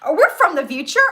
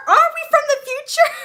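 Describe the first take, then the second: First: Louder, eager imitation; mock excited. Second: Very high, loud mock-excited question; hammed-up excitement. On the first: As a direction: act out his excited question. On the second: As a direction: squeal the question in imitated excitement. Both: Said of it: "he gets all excited".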